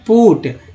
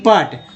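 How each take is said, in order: First: The vowel is a short 'oo' sound. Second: The vowel is a short 'uh' sound. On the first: The speaker calls it right. "पढ़ते हैं पुट" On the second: The speaker calls it wrong. "न कि पट"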